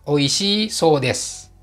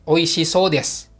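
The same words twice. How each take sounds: First: The final i of oishii is kept. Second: The final i of oishii is dropped. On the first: Reportedly it is delicious. "Jadi i-nya tetap, tidak dihilangkan" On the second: It looks delicious. "i-nya dipotong"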